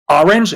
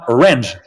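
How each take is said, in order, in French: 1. L'accent tombe là où les anglophones le mettent habituellement. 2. L'accent tombe sur une syllabe que les anglophones évitent. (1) "On dit orange" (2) "on dit pas orange, sinon on te comprend pas"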